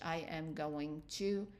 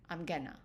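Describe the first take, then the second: First: Every word is said in full. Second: The words are shortened and run together.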